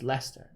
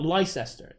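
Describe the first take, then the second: First: "Leicester" in two syllables, les-ter; middle dropped. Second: "Leicester" in three syllables, lie-ses-ter; wrong spelled-out pronunciation. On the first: Correcting the spelled reading, "Leicester" shortened to les-ter. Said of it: "it's Leicester". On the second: Showing how not to say it, "Leicester" fully sounded out. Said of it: "it's not Leicester". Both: Shown as a demonstration.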